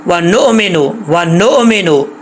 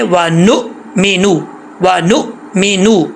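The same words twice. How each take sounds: First: वा नो मेनो with the hamza bounced out as "नो"; wrong qalqala. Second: वा नु मीनू with a short "नु" and a clean stop on the hamza; correct hamza. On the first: Teacher imitating students' common mistake with a bounced hamza. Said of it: "ये बहुत बड़ी mistake है". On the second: Teacher showing students the right reading, slowly. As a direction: stop the sound sharply on नु. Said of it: "पढ़ना कैसे है?". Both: Shown as a demonstration.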